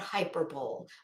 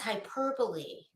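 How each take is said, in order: First: The word is said with three syllables. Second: The word is said with four syllables. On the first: The speaker calls it wrong. "not hyperbole. I don't know what the fuck hyperbole is" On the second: The speaker calls it right. "it's pronounced hyperbole"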